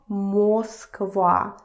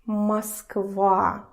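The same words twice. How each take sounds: First: The first vowel is a full, clear O. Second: The first vowel is reduced, between A and O. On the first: The speaker calls it wrong. "It's not Moskva" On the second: The speaker calls it right. "it's not clear o, it's something in between"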